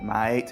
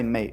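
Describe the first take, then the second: First: The vowel is stretched out long. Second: The vowel is short and plain. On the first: The speaker calls it right. "you extend it" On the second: The speaker calls it wrong. "you don't just say mate"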